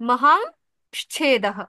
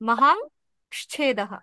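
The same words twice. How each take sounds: No difference in how they are said.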